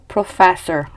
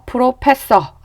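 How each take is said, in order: First: The middle consonant is an f sound. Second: The middle consonant is a p sound. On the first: The speaker calls it right. "professor 이렇게 발음하시면 됩니다" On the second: The speaker calls it wrong. "프로페서 아니고"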